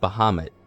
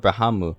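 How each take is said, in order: First: The name ends with a clear, hard T sound. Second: The name ends without a final T sound. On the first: This is how the speaker has always said it. "with a hard T" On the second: This is how other people say it nowadays. "people say Bahamu"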